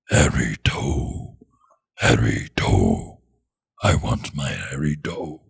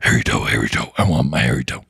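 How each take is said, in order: First: The phrase is said at a slower pace. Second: The phrase is said very quickly.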